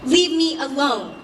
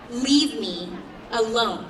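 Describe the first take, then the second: First: Higher, louder rebuff to an aggressor; firm retort. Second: "Leave me" and "alone" split by a pause; insist, pausing before "alone"; firm, spaced-out insistence. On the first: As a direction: raise your voice and push back. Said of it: "I directed at him". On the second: Repeats retort with deliberate pauses. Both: A narrator's reading.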